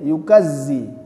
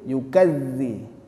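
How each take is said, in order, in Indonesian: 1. Huruf tengahnya bunyi z yang berdengung. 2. Huruf tengahnya bunyi th yang lembut. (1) "Kalau kita masukkan jadi yukazzi, zai dia" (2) "kalau kita keluarkan sedikit"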